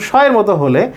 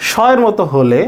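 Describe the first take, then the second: No difference in how they are said.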